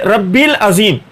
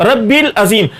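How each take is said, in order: Both takes have the same delivery.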